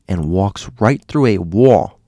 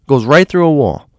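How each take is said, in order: First: "walks right through a wall" said slowly and drawn out; slow telling. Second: "right" punched high and louder; emphatic repeat. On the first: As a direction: let "through" hang slowly. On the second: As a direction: hammer "Goes right through a wall" higher and louder. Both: Retold or imitated.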